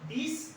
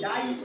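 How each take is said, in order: First: The vowel is a short 'i' sound. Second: The vowel is a long 'eye' sound. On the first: The speaker calls it wrong. "डिस नहीं होगा" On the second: The speaker calls it right. "डाइस हो जाएगा"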